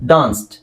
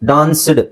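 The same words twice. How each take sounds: First: The word ends with a t sound. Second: The word ends with a d sound. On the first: The speaker calls it right. "Real pronunciation English ಅಲ್ಲಿ ಯಾವ ತರ ಹೇಳಬೇಕು" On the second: The speaker calls it wrong. "ಡಿ ನೇ pronounce ಮಾಡಿದ್ರೆ"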